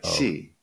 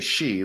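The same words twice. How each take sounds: First: It begins with a sound between 's' and 'sh'. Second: It begins with a plain 'sh' sound, like 'she'. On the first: "it's almost closer to C... it's like halfway between C and she" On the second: "normally we just say Xi, like, you know, like he, she"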